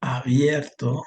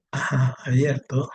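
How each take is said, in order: First: Drawn out, word by word; slow dictation. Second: Said in the usual way. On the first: Shown as a demonstration. Teacher to student, giving a word slowly. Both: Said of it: "si yo pongo".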